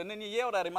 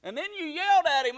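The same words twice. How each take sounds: First: Mildly raised retold accusation; accusing brother. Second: High, loud mock accusation; accusing dad. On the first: Brother repeating the complaint, mild mock reproach. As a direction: imitate a brother's milder reproach. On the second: Dad accusing son on the phone, high loud mock scolding. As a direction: imitate an indignant father, pitched way up.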